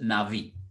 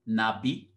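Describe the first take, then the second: First: The middle consonant is a v sound. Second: The middle consonant is a b sound. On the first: "or you can pronounce it Navi" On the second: "the primary Hebrew word for a prophet is the word Nabi"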